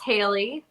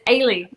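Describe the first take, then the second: First: The name begins with an H sound. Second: The name begins with no H sound.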